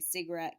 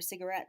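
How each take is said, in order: First: The middle unstressed vowel is left out. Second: The middle unstressed vowel is pronounced.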